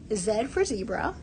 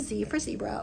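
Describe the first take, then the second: First: The letter is said 'zed', Canadian style. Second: The letter is said 'zee', American style.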